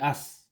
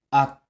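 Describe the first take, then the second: First: The syllable ends with an s sound. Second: The syllable ends with a t sound. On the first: The speaker calls it wrong. "hindi as" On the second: The speaker calls it right. "ang sound nila ay sound T"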